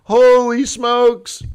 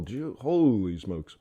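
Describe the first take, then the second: First: Loud, high and drawn-out holy smokes; big slow Holy smokes; amazed exclamation. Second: Low, slow and soft holy smokes; soft slow Gee, holy smokes; hushed awe. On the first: Retold or imitated. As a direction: marvel at the nerve of it. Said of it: "I'm like". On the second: Real, not acted. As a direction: murmur it in quiet disbelief. Quiet awed aside to himself.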